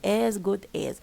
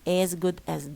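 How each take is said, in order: First: The first 'as' is full and stressed. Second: The first 'as' is reduced and unstressed. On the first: The speaker calls it wrong. "so don't say as good as" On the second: The speaker calls it right. "As it becomes as"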